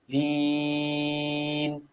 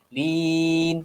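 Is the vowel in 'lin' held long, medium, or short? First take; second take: long; medium. First: The vowel is held for six counts. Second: The vowel is held for four counts. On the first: "enam harakat" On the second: "empat harakat"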